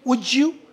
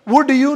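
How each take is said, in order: First: The words run together in connected speech. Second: Each word is said separately and fully. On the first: The speaker calls it right. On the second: The speaker calls it wrong.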